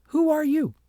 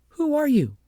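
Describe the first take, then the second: First: High, loud echo of Agnes; mocking echo. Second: Put-on high, loud girlish voice for Agnes; a spoiled girl snapping a question, pitched up high; Agnes demanding. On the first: The ugly child mimics Agnes word for word, high and loud. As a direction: throw the question straight back, pitched up high and loud. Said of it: "And the little girl said". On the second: Agnes demands the strange child's name, high and loud. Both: A narrator's reading.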